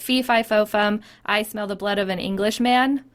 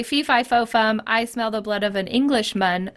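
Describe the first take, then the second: First: Englishman ending "-man" like fum; rhyming pronunciation. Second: Englishman with a schwa, "-mən"; American pronunciation. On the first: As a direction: stretch "Englishman" to full "man" to rhyme. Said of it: "the way I wanna say it". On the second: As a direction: say "Englishman" ending in a reduced "mən". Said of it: "slant rhyme where the final consonant doesn't match". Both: Shown as a demonstration.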